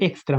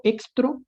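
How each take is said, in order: First: Said in the usual way. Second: Extra said as extro, ending in o; deliberate misspelling. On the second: Shown as a demonstration. Teacher showing students a typo, extra said as extro. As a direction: swap the final a of extra for an o. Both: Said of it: "me equivoqué y pongo extra".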